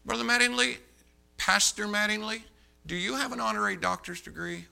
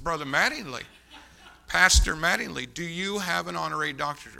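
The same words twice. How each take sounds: First: Raised-pitch, deliberate cross-examination; pointed questioning. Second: Insistent repeat, punching the title; firm questioning. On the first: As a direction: address him pointedly, pitching the name up. Acting his pointed cross-examination. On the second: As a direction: press the question firmly in your usual pitch. Repeats question more firmly. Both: Retold or imitated.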